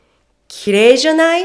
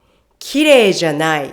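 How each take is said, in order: First: 綺麗じゃない? quick, climbing high to the end; questioning upswing through 綺麗じゃない?; rising tone. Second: 綺麗じゃない? said as a statement, dropping at the end; no rise on 綺麗じゃない?, let it fall. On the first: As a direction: ask for agreement with a rising 綺麗じゃない?. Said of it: "The first one". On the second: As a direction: negate with a falling 綺麗じゃない?. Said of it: "While the second one". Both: Shown as a demonstration.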